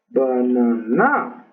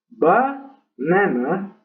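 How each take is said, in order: First: The stress is on the third syllable. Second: The stress is on the first syllable. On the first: "Y en la tercera, que no es correcto también" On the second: "ese acento en la primera sílaba de banana"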